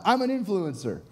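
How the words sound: It is said with strong feeling.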